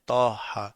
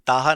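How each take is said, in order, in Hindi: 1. पहला अक्षर 'tau' की तरह बोला जाता है। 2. पहला अक्षर सादा 'ta' की तरह बोला जाता है। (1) "बल्कि तौह है, तौहा" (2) "ये ताहा नाम नहीं है"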